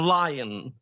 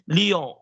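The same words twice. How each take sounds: First: The word is said with English pronunciation. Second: The word is said with French pronunciation. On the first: The speaker calls it right. "for lion" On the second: The speaker calls it wrong. "they say lion, yes, in French"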